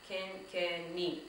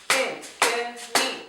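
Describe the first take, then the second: First: Said in the usual way. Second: "Kenkeni" slow and loud, three beats; slow loud chant "Ken-ke-ni"; syllables beaten out. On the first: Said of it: "that is called kenkeni". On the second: Shown as a demonstration. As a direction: drum out "Ken-ke-ni" slowly. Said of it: "Let's go".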